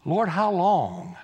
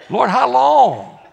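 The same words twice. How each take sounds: First: Slow, drawn-out wary asking; hesitant question. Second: Loud, high, drawn-out mock protest; exclaimed question. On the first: Acted. Isaiah asks the Lord about being sent, slow wary question. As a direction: stretch it out at an ordinary volume. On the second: Isaiah balks at the Lord's sending, loud mock protest. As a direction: cry it out, stretching the words. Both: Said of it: "this is how I know he's Baptist".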